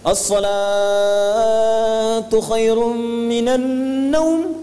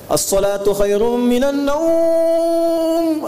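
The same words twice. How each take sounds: First: The word salatu is drawn out long. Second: The word naum is drawn out long. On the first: "Di Madinah salatnya yang panjang" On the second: "di Bandung naumnya yang panjang"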